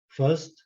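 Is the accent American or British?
British. It is said in a British accent. "em britânico"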